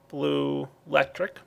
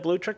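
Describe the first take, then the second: First: The term is said fully as two separate words. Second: The term is squeezed into one short blended word. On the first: The speaker calls it right. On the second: The speaker calls it wrong.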